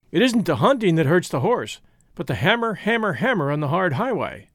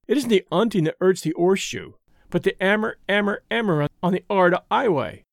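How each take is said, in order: First: Hunting, hammer, hard highway with each H breathed out; American stable boy sounding the H in hammer and highway; every H sounded. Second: 'unting, 'ammer, 'ard 'ighway with every H left off; English stable boy dropping the H in 'ammer and 'ighway; dropped Hs. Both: A narrator's reading. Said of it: "without suffocating a single H".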